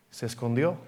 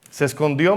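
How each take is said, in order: First: Said in the usual way. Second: Se escondió said again with more weight; emphatic repeat. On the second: Shown as a demonstration. Preacher to congregation, emphatic repeat of se escondió. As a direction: repeat it, driving it home.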